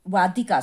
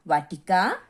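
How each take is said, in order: First: "वादिका" with द, the correct word; corrected reading. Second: "वाटिका" read with a hard retroflex ट, the slip; "वाटिका" said with ट before the correction; mistaken reading. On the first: ("वादिका" में द वाली सही पढ़त) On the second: ("वाटिका" में ट वाली गलत पढ़त) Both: Shown as a demonstration. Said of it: "sorry, वादिका".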